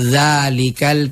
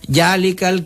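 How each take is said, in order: First: The word begins with a z sound. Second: The word begins with a j sound. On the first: It is the corrected pronunciation learned through study. The speaker calls it right. "tapi za" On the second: It shows the influence of the Makassar mother tongue. The speaker calls it wrong. "Makassar itu biasa tuh nada na cancang jalikal kitabu padahal za"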